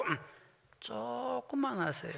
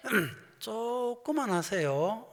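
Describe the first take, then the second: First: 천천히 강조. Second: 길게 늘인 시범. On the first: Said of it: "그대로 얘기하세요". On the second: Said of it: "미얀마로 말로 냈네 막". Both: Shown as a demonstration.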